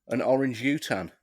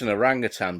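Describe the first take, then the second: First: It is said as 'orange' plus 'utan'. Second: It is said as 'orang' plus 'utan'. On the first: "that's how I used to pronounce it when I was a kid" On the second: "it's an orangutan"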